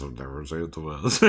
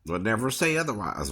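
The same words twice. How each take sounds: First: Lower, softer and faster; quick low mutter. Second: Said in the usual way. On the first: Shown as a demonstration. Singer muttering his repeat lower and faster. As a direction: throw it away under the breath. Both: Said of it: "repeated line".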